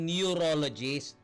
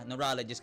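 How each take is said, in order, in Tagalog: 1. Binabaybay ang salita titik-titik. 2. Binibigkas nang maayos ang salita sa karaniwang paraan. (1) "Hindi yung neurologist" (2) "Neurologist kayo pupunta"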